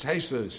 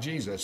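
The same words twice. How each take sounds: First: Jesus said the Spanish way, hay-SOOS; "Jesus" as the Spanish name, starting with H; Spanish pronunciation. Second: Jesus said the English way, JEE-zus; "Jesus" as English readers say it, JEE-zus; English pronunciation. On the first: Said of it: "in, in Spanish". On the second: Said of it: "If you read it in English". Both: Shown as a demonstration.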